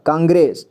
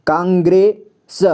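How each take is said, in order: First: Said in the usual way. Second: कांग्रेस slowly split as "kaang... gre... sa"; कांग्रेस slow, with a pause between parts; sounded out. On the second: Shown as a demonstration. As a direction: spell out कांग्रेस piece by piece. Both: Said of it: "इतना कांग्रेस पढ़ेंगे".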